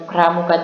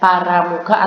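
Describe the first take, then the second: First: The p and r are joined with no vowel. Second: An a vowel separates the p and r. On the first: The speaker calls it right. "P dan R bunyinya digabung" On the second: The speaker calls it wrong. "tidak paramuka"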